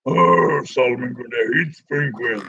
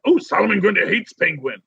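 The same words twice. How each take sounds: First: A playful low monster take on the line; lumbering monster voice. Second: Said in the usual way. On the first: Pretend. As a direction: say it like a hulking zombie brute. Voicing Grundy's line, lower.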